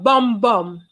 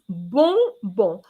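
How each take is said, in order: First: Each syllable ends with a closed m sound. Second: Each syllable ends with an open nasal vowel. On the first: The speaker calls it wrong. "Today I heard bom bom" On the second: The speaker calls it right. "It's bonbon. ... the sound rather, on is on"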